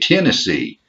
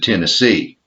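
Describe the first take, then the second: First: It is said with Southern stress placement. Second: It is said with non-Southern stress placement. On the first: "We say Tennessee" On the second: "instead of"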